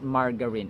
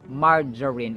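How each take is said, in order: First: The g sounds hard, like in go. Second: The g sounds soft, like j. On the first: The speaker calls it wrong. "It's not" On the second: The speaker calls it right. "the G is pronounced as in J"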